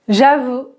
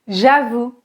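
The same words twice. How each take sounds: The two takes are said the same way.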